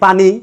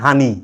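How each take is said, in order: First: The word begins with a p sound. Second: The word begins with an h sound. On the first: This is how the word is spelled. The speaker calls it right. "ঋষিকান্নি পানি" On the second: This is how a local dialect speaker says it. The speaker calls it wrong. "উচ্চারণে কয় হানি"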